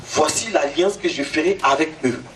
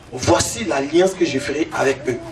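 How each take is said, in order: Both takes have the same delivery.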